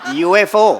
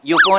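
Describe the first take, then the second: First: It is spelled out as letters, U-F-O. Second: It is said as a single word, yufo. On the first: The speaker calls it right. "ती अध्यक्षर आहेत, initials" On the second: The speaker calls it wrong. "युफो नाही"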